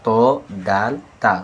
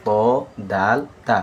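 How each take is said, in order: Both takes have the same delivery.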